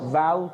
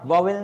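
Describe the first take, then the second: First: The word is said like 'vaul', without a middle v. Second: The word is said like 'vo-vel', with a middle v. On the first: The speaker calls it right. "वाउल को देख लिया" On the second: The speaker calls it wrong. "वॉवेल नहीं"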